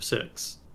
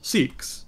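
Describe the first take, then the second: First: The word is said the original way. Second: The word is said the American way. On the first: This is how the word is supposed to be pronounced. "instead of Sikhs" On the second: This is the form Americans are permitted to use. "special permission to Americans to call them Sikhs"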